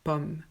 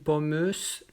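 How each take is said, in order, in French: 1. Ça finit sur le m, rien après. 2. Une voyelle finale et le son s se prononcent. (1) "Non, pomme" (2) "ou pommeuse"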